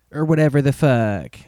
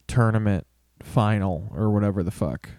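First: Jim Cornette voice. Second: Said in the usual way. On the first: Retold or imitated. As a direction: spit "whatever the fuck" like a grumpy old wrestling manager. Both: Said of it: "I sound like Jim Cornette now".

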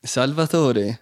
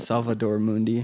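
First: Slow, drawn-out Italian "Salvatore"; Italian accent. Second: Flat American "Salvador Mundi", no rolled sounds; American accent. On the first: Host gives the Italian version, slow Italian accent. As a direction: savour "Salvatore" like an Italian would. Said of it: "that's Italian". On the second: Host retries the painting name, plain American accent. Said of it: "how to do that in an American accent". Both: Shown as a demonstration.

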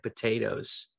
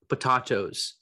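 First: Said in the usual way. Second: "potatoes" said po-TAH-toes, with a broad ah; po-TAH-toes, the vampire way; vampire pronunciation. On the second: Shown as a demonstration. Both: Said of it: "as the vampires would say".

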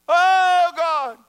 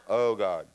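First: Very high, loud mock holler; hollering at God. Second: Said in the usual way. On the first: People praying to a distant God, hammed-up holler. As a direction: imitate people crying out to someone far away. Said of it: "people holler at God". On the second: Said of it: "'cause he's inside".

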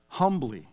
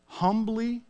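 First: Said in the usual way. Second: "humbly" repeated much higher, for emphasis; stress on humbly. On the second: Shown as a demonstration. Preacher urging the congregation to venture out humbly, emphatic "humbly". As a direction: lift the pitch sharply on "humbly". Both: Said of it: "I would emphasize that word".

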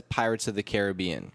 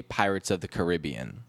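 First: Caribbean as care-uh-BEE-un; Caribbean said the usual movie-title way, care-uh-BEE-un; common pronunciation. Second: Caribbean as kuh-RIB-ee-un; Caribbean said the unusual way, kuh-RIB-ee-un; alternative pronunciation. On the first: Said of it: "everyone says Pirates of the Caribbean". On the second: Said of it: "I never heard anyone say". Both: Shown as a demonstration.

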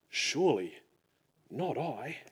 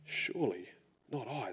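First: Mild sorrowful murmur; saddened. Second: Soft grieving near-whisper; hushed sad echo. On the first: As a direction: read it like a disciple quietly hurt. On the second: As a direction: let the repeat fade almost to nothing. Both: A narrator's reading. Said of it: "They were saddened".

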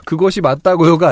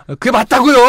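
First: Said in the usual way. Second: Higher, exasperated "그게 맞다고요"; insist, fed up; irritated insistence. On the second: Shown as a demonstration. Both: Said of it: "약간 이렇게".

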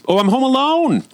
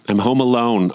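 First: Much higher, thrilled squeal of freedom; giddy delight. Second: Said in the usual way. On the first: Real, not acted. Mom alone at home for once, giddy high delight. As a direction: sing out the joy of an empty house. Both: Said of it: "Just gonna interrupt for a moment".

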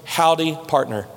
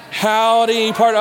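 First: Lightly drawled West Texas howdy, low; a touch of West Texas twang on the greeting; low, easy West Texas cowboy greeting; West Texas accent. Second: Playful West Texas cowboy greeting; West Texas accent. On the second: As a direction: call it out in a West Texas twang. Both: Shown as a demonstration. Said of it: "in the best West Texas slang accent you can come up with".

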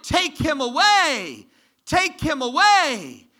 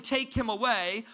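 First: High, loud, slow crowd shout. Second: Said in the usual way. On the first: Retold or imitated. Preacher voicing the crowd's cry to Pilate, slow loud shout. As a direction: hurl it like an angry mob. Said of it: "But they shouted".

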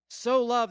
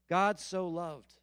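First: So punched louder, falling hard on loved; stress on so. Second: Said in the usual way. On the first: Shown as a demonstration. Preacher repeats the verse to hammer So, stressed. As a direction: hit So hard and drop on loved.

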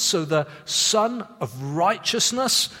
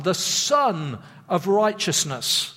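First: Son of Righteousness with the weight on righteousness, said slowly; slow, emphasis landing on righteousness; stress on righteousness. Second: Son of Righteousness with Son hit hard, said slowly; slow, emphasis landing on Son; stress on Son. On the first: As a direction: lean into righteousness, not Son. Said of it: "You can put the emphasis on righteousness". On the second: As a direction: punch the word Son, let righteousness fall away. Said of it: "putting the emphasis on the word son". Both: Shown as a demonstration.

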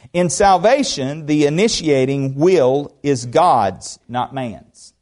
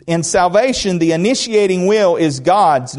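First: Slow emphatic reading. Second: Said in the usual way. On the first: Shown as a demonstration. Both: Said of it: "Did you hear that?".

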